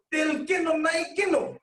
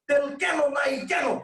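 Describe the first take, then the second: First: Both কেন said alike, on purpose; wrong vowel demo. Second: Slow demo of both কেন said the asking way; other wrong vowel. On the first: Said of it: "যদি এ উচ্চারণ করতেন". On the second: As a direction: show what changes when both কেন match. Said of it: "দুইটাতে আপনি এ উচ্চারণ করতেন". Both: Shown as a demonstration.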